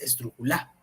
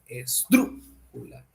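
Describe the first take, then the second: First: The stress falls on the last syllable. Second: The stress falls on the antepenultimate syllable. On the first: The speaker calls it wrong. "no es la última" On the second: The speaker calls it right. "es la antepenúltima"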